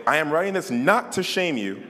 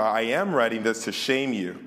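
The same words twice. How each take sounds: First: "not" lifted higher in correction; stress on NOT. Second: Said in the usual way. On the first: Real, not acted. Preacher correcting his misread verse, stressing "not". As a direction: correct the line by punching "not".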